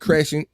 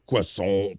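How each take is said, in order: First: It is said with an anglicized pronunciation. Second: It is said with a French-style pronunciation.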